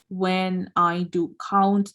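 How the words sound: Each word is read separately with breaks between. This reading is slow and takes time. The speaker calls it wrong. "normally what people do is they read it like"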